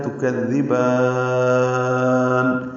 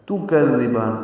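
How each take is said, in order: First: تو کذبان with the با in کذبان held very long, chanted; in تو کذبان stretch the با far out before stopping on نون; تو کذبان recited very slowly, با drawn out, sung; lengthened madd at the stop. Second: Said in the usual way. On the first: Shown as a demonstration. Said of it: "با کو زیادہ لمبا کر سکتے ہیں". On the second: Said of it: "تا پیش تو نہیں پڑھنا".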